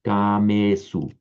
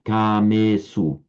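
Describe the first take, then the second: First: The first vowel is said long. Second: The first vowel is said long.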